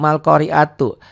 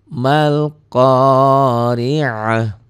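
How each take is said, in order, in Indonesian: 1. Kata itu berakhir dengan suku kata tu penuh. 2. Kata itu berakhir dengan bunyi h yang lembut. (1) "kalau belajar baca Latin tanpa guru, bisa aja nih" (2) "tu-nya ini ta ini berubah menjadi ha"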